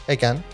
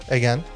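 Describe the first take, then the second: Both takes have the same delivery.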